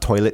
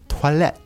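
First: The word is pronounced like English toilet. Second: The word is pronounced with French sounds. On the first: The speaker calls it wrong. "the pronunciation as well is not toilet" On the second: The speaker calls it right. "it's toilette. ... the French way"

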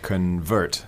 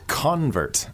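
First: The stress is on the second syllable. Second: The stress is on the first syllable. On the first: It is the verb meaning to change form. "So the stress is on the second syllable" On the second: It is the noun for a person who changed. "And if you turn it to a noun"

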